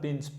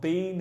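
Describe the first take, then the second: First: The word has a short, reduced vowel. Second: The word has a full, long vowel. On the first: The speaker calls it right. "It's very reduced" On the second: The speaker calls it wrong. "It's not been"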